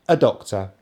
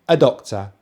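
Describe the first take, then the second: First: The two words run together smoothly. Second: The two words run together smoothly.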